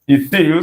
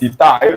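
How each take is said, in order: First: The last syllable sounds like 'eel'. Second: The last syllable sounds like 'eye'. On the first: "So I've got eel" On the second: "Some persons pronounce it ethyl"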